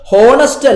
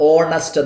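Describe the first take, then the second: First: The word begins with an h sound. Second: The word begins with a vowel sound. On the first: The speaker calls it wrong. "ഹോണസ്റ്റ് അല്ല പറയാറ്" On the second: The speaker calls it right. "ഓണസ്റ്റ് എന്നാ പറയാ"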